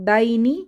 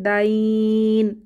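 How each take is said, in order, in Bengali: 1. শব্দটি একটি ছোট স্বরবর্ণে শেষ হয়। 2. নরম স্বরবর্ণটি টানা হয়, আর শেষ হয় ন-এ।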